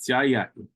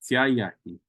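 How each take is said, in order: No difference in how they are said.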